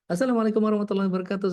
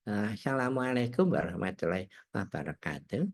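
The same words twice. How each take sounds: First: A high, energetic voice projected from the belly. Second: A put-on voice of an old grandfather. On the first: It is a morning show for young executives. "kalau di pagi itu lebih modulnya lebih tinggi, jadi pakai vokal perut" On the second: It is an afternoon show hosted in a grandfather character. "Kalau di female di sore gitu ya"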